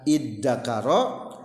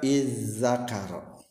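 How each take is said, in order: First: The doubled consonant is a d sound. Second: The doubled consonant is a z sound. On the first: "nulisna dengan da tanpa titik" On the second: "za nu aslina tukerkeun kana da"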